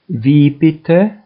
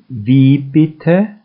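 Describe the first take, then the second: No difference in how they are said.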